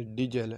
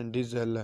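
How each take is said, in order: First: ڈیزل said with a j sound, dee-jel; ڈیزل with a jeem, the Arabic way; Arabic diesel with j. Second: ڈیزل said with a clear z sound, Urdu style; ڈیزل with a plain z, as in Urdu; Urdu diesel with z. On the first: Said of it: "یہاں پر جیم کی آواز نکالیں گے". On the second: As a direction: say ڈیزل as dee-zel with a z. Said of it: "جیسا کہ ہم اردو میں ڈیزل زے پڑھتے ہیں". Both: Shown as a demonstration.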